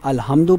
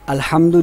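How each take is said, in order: First: The h is a plain, light h sound. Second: The h is a harsh, breathy throat sound. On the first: All humiliations. The speaker calls it wrong. "अगर हम उसको हा पढ़ दें" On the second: All praise. The speaker calls it right. "वो हा है। जो जीम के बाद हा आता है"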